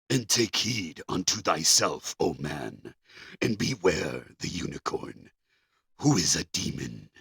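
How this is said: It is read in a spooky old voice.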